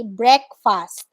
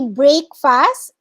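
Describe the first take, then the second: First: Breakfast as BREK-fust, slowly; correct breakfast. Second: Breakfast as BRAKE-fast, slowly; wrong breakfast. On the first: Teacher giving the proper breakfast. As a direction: model breakfast carefully. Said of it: "you say breakfast". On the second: Teacher warning against a long a. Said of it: "You don't say breakfast". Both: Shown as a demonstration.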